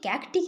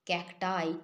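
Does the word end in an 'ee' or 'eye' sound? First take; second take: ee; eye. First: The word ends in an 'ee' sound. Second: The word ends in an 'eye' sound. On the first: The speaker calls it wrong. "ক্যাকটি কিন্তু নয়" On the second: The speaker calls it right. "ক্যাকটাই ঠিক করে pronounce করবে"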